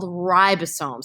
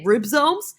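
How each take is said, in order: First: All three syllables are said, including the middle one. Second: The middle syllable is dropped, giving two syllables. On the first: The speaker calls it right. "It's not. It's called ribosomes" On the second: The speaker calls it wrong. "A lot of people say ribsomes, like it's a pack of ribs"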